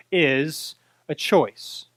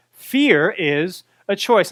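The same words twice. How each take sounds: First: "is a choice" drawn out, low and slow; slow emphatic. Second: "Fear is a choice" said very slowly and firmly; slow repeat. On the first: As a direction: let "is a choice" land slowly, word by word. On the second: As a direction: repeat "Fear is a choice", hammering each word. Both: Shown as a demonstration.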